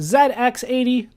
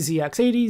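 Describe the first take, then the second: First: The letter Z is said the British way. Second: The letter Z is said the American way. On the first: "If you were to go to England, ... They would call it the Z X eighty" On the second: "here in America, we always say Z"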